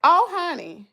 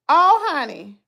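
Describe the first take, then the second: No difference in how they are said.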